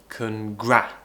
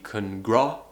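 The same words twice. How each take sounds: First: The second vowel is an open front 'a'. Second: The second vowel is a back 'ah' sound. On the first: The speaker calls it right. "but we want congra" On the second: The speaker calls it wrong. "some people pronounce it as ah"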